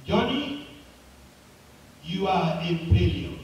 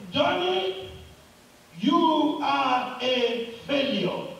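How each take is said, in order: First: Echoing voice. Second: Mild mock yell, high on the name, drawn out; top of his voice. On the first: Acted. Mountain sends the boy's words back, acted echo. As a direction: echo of a boy's call, dropping on the last phrase. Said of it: "a voice came back, just like his voice". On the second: Boy cries out on the mountain, mildly acted yell. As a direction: call it out slowly, name pitched high. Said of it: "on the top of his voice said".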